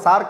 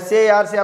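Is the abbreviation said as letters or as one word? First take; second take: one word; letters. First: It is spoken as a single word. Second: Each letter is spoken separately. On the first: The speaker calls it right. "సార్క్ అంటాం" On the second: The speaker calls it wrong. "దీన్ని మనం ఎస్ఏఆర్సి అనము"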